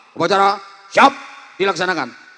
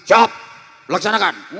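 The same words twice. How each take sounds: First: Student commander reporting boldly; barked report. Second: Sharp soldier answer; snapped reply. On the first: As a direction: bark it at the principal. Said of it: "harus berani bentak". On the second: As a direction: snap it back. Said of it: "masih dibentak lagi". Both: Shown as a demonstration.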